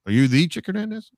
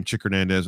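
First: "the" punched high as the famous one; clerk's eager "are you THE Chick Hernandez"; stress on THE. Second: Said in the usual way. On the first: Retold or imitated. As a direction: golf clerk realizing who's calling, stressing the. Golf clerk recognizes famous caller.

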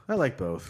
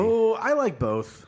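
First: Said in the usual way. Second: High, slow exclaim; drawn-out emphatic protest. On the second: Real, not acted. Defending Miracle Whip.

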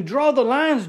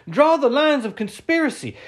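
First: Said in the usual way. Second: "Draw" hit hard, start higher; stress on draw. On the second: Shown as a demonstration. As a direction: punch "Draw" like a command.

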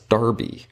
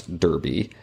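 First: Derby said as "DAR-bee"; British pronunciation. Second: Said in the usual way. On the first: Shown as a demonstration. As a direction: give Derby an open "ar" in the first syllable, slowly. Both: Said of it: "the British pronounce derby".

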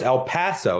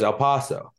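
First: El Paso with a flat A, el PASS-oh; corrected El Paso. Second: El Paso with an "ah", el PAH-so; mispronounced El Paso. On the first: Brother correcting his girlfriend, El PASS-o. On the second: Brother's girlfriend answering how it's pronounced, El PAH-so. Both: Retold or imitated. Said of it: "my brother corrected her".

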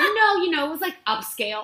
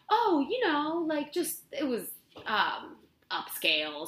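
First: Much higher and louder, pushing the claim; insistent bluff. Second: High, eager job-applicant bluff; faking confidence. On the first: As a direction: oversell it, high and loud. Bluffing in interview, repeated. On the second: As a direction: sell the bluff with a bright high lilt. Faking expertise in a job interview. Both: Retold or imitated.

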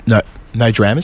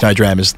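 First: "No, no dramas?" with the tune rising at the end like a question; flubbed take, "No, no dramas?" rising as if asking; accidental questioning rise. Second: Said in the usual way. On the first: Shown as a demonstration. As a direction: make "dramas?" go up, unsure. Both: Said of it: "I'll try that again".

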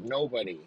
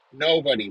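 First: Said in the usual way. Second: Louder punched Nobody; emphatic repeat. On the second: Real, not acted. Hammering his answer about haircuts, louder. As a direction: slam the second Nobody home.

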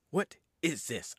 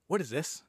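First: Slow, spaced-out repeat; drawn-out disgust. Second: Quick mock-indignant demon; disgusted demon quote. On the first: Retold or imitated. Demon appalled by his new body, slow mock disgust. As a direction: stretch each word in mock disgust. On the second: Demon rejecting his new body, mock disgust. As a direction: blurt it as the put-out demon.

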